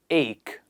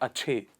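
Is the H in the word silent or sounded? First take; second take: silent; sounded. First: The ch is a plain K sound. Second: The H is sounded in the ch. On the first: The speaker calls it right. "It is ache" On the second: The speaker calls it wrong. "Not ache"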